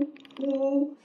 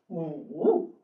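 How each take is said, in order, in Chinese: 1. 音调高而平。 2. 音调先降到低，再升上去。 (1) "乌鸦的呜" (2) "三声呢"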